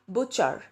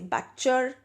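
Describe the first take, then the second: First: The first vowel is the vowel of put. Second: The first vowel is not the vowel of put. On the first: The speaker calls it right. "the actual pronunciation for this is butcher" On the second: The speaker calls it wrong. "Do you say butcher?"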